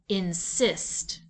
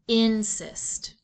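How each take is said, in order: First: The stress is on the second syllable. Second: The stress is on the first syllable. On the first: The speaker calls it right. "shifting the accent to the second syllable" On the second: The speaker calls it wrong. "accented on the first syllable, so let's try that"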